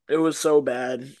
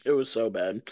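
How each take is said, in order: First: Said in the usual way. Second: Softer, lower echo. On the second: Real, not acted. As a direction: repeat It was so bad softer and lower.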